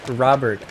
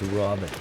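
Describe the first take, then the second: First: The first vowel is a plain American 'ah'. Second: The first vowel is a rounded 'aw' sound. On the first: "O's become like O's" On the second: "Robert becomes Robert"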